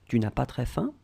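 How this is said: The voice rises at the end.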